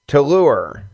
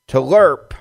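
First: The word is said like 'lure'. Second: The word is said like 'lerp'. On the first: The speaker calls it right. "to lure is the correct way to say the word" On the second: The speaker calls it wrong. "he said lerp"

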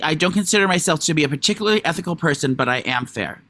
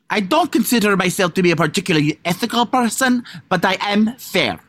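First: It is said in the speaker's normal voice. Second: It is said in a put-on foreign accent.

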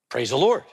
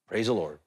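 First: It is said louder. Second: It is said at normal, softer volume.

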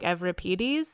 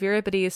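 First: The name is said with a modern Greek pronunciation. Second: The name is said with a Canadian English pronunciation. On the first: This is how the game pronounces it. "that's the modern Greek coming out, because they call him like Euripides" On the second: This is how the speaker normally pronounces it. "I'm saying it in a very like Canadian English way of Euripides"

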